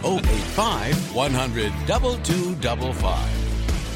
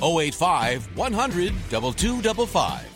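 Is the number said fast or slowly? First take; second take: slowly; fast. First: The number is said slowly. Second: The number is said fast.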